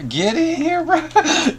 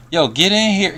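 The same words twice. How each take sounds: First: Much higher, squeaky playful call. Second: Loud call into the room. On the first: Pretend. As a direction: squeak it out teasingly. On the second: Real, not acted. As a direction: shout them into the call. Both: Calling a friend into chat.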